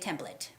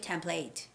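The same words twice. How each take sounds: First: It is said with an American pronunciation. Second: It is said with a British pronunciation. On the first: "In American English, we say template" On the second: "in British English, they say template"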